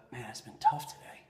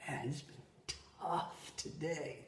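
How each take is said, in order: First: Said in the usual way. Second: Soft, drawn-out sigh of a line; hushed, worn-out admission; weary confiding. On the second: Retold or imitated. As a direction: say it slowly and quietly, stretching "tough". Same quote slowed and softened.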